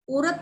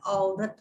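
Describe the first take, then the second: First: "औरत" said as "orat", with O; wrong "o-rat" for "औरत"; regional mispronunciation. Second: "औरत" with open "au"; correct pronunciation. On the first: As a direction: round the first vowel of "औरत" to "o". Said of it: "औरत नहीं होता है". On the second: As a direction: say "औरत" as "au-rat". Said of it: "बहुत से लोग बोलते हैं". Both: Shown as a demonstration.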